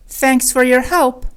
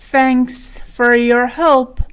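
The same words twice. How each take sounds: First: Said in the usual way. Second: Drawn-out teaching repeat; slow and segmented. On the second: Shown as a demonstration. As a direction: stretch "Thanks", then "for your help" with gaps. Lesson repeats it slowly. (آهسته و شمرده)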